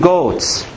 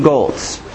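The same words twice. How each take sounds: First: Said in the usual way. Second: "goats" with a stray l, like "golts"; accidental accent. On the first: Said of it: "I almost did it again". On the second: Real, not acted. Preacher tripping over a word in his sermon, accidental accent on "goats". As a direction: slip an l into "goats" before the t. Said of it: "Getting an accent".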